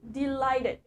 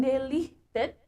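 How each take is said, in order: First: "delighted" said slowly as di-LAI-ted with a clear "ai"; correct pronunciation. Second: "delighted" said slowly as de-LIH-ted, flat e and no "ai"; wrong pronunciation. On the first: Teacher corrects students: "delighted" said slowly as di-LAI-ted. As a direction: model "delighted" carefully as di-LAI-ted, falling at the end. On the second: Teacher shows students the wrong way: "delighted" as de-lih-ted. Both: Shown as a demonstration. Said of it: "bukan delighted, tapi delighted".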